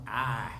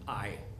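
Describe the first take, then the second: First: The vowel is flat, in an Oklahoma accent. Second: The vowel is a standard, full diphthong. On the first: The speaker calls it wrong. "that flat Oklahoma I" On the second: The speaker calls it right. "instead of saying I"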